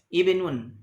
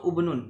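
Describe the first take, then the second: First: The word begins with an i vowel. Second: The word begins with a u vowel. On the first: The speaker calls it right. "dimulai dengan kasrah" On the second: The speaker calls it wrong. "atau ubnun, tidak"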